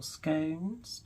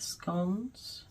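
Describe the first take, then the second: First: "scones" rhyming with gone, short o; "scones" with a quick short o; scones other way. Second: "scones" said slowly, rhyming with stones; "scones" with a long o, drawn out; scones one way. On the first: Giving the other way to say it, a short-o "scones". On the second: Showing how she says scones, a slow long-o "scones". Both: Shown as a demonstration. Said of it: "depending on how you want to pronounce it".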